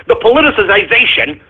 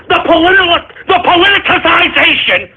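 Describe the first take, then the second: First: Said in the usual way. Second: Politicization tripped up, said high and strained; stumbling over the word. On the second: Real, not acted. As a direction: fight to get politicization out, pitch going up in frustration. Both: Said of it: "I can't even say it".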